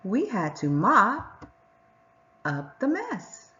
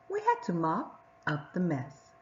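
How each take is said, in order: First: Slow, in two phrases split by a pause after mop; scooped phrasing. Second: Said in the usual way. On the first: Shown as a demonstration. Teacher leading the class in choral reading, in two phrases. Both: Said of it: "let's read it together".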